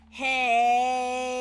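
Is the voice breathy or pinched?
pinched. The voice is pinched and pressed.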